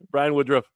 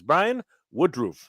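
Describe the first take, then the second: First: The surname's last part does not sound like 'roof'. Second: The surname's last part sounds like 'roof'. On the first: The speaker calls it wrong. "My my apologies" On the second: The speaker calls it right. "It's pronounced roof, like roof of a house"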